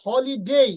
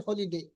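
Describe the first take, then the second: First: Holiday ending in a "dei" glide; correct holiday. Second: Holiday ending flat "de", softer; wrong holiday. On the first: Teacher models correct holiday for students. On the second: Teacher shows the wrong holiday to avoid. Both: Shown as a demonstration. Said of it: "not holiday".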